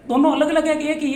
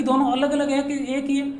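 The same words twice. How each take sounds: First: दोनों pressed a bit louder on the repeat; teacher repeats the question to pupils with emphasis; emphatic repeat. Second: Said in the usual way. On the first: Shown as a demonstration. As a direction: push the question home a second time.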